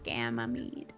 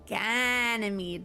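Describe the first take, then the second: First: The name is said with an m sound. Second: The name is said with an n sound. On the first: The speaker calls it wrong. "not Gamamede" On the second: The speaker calls it right. "Ganymede, not Gamamede"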